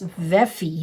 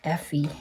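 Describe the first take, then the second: First: The name begins with a V sound. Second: The name begins with an F sound. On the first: The speaker calls it right. "It's Veffy" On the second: The speaker calls it wrong. "I think I was pronouncing it with an F"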